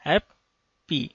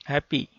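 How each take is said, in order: First: हैप्पी broken in two, "hap", pause, "pee"; split into syllables. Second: Said in the usual way. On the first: Shown as a demonstration. Teacher showing learners the two syllables of हैप्पी, split apart. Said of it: "दो syllable बना है इसमें". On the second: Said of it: "हैप्पी के अंदर कितने हैं".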